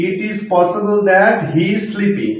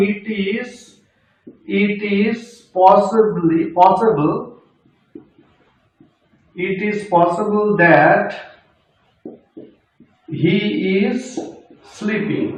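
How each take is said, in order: First: Slow, word by word full sentence; slow dictation. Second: Very slow, each word apart; slow dictation. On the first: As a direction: read the sentence out slowly for the class. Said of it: "এইভাবে বলি". (ধীরে ধীরে পুরো বাক্য) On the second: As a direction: dictate it slowly to students. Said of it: "আমি ভেঙে ভেঙে বলছি প্রত্যেকটাকে". (ধীরে ধীরে বলা) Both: Shown as a demonstration.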